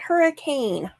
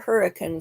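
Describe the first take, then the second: First: It uses the outsider pronunciation of the name. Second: It uses the local pronunciation of the name. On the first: The speaker is not from the area. The speaker calls it wrong. "not Hurricane" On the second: The speaker is from the area. The speaker calls it right. "the locals pronounce it Hurricane"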